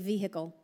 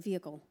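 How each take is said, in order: First: It is said with a Southern accent. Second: It is said without a Southern accent.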